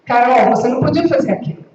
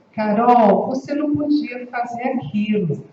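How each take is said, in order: First: Sharp, louder and fast scolding; fast, louder reproach; aggressive tone. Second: Gentle, inviting delivery; calm invitation. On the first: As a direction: snap it at her like an accusation. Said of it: "eu posso estar agredindo". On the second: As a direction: say it to invite, not accuse. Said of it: "com entonações diferentes". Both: Shown as a demonstration.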